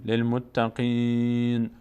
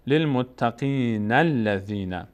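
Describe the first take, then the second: First: للمتقین drawn out slowly, stopping on a bare n; pausal reading. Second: للمتقین الذین run together as muttaqīna-lladhīna, alef dropped; joined reading. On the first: Teacher showing a stop at verse end, pausal recitation. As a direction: recite للمتقین with a long ī and a full stop on nun. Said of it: "اینجا توقف کنیم". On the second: Teacher showing two verses joined, connected recitation. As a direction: recite للمتقین الذین slowly in one linked breath. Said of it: "بچسبونیم با آیهٔ بعدی". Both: Shown as a demonstration.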